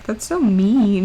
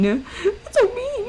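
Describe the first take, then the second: First: Mock hurt. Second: Slow, much higher squeak; squeaky mouse voice. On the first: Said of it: "Don't make fun of my voice cracking". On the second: Pretend. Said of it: "I sound a little bit like a mouse".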